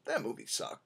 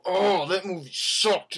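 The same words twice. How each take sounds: First: Soft, low, casual verdict; mild deadpan shrug, no big deal; offhand shrug. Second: Slow, drawn-out scoff at the movie; exaggerated moviegoer complaint; mock disgusted outburst. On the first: Retold or imitated. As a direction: toss it off with a shrug. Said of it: "I just kinda walked out and I go". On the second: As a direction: ham up storming out hating it. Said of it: "walk out and go".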